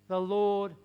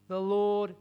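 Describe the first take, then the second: Both takes have the same delivery.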